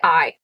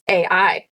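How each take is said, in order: First: The name is said as one single syllable. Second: The name is said as two separate syllables. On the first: The speaker calls it right. "We're gonna say I" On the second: The speaker calls it wrong. "I want to read it as A I, but I don't think that's correct"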